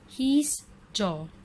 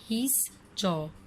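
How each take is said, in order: First: It is said as one contracted syllable. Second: The same.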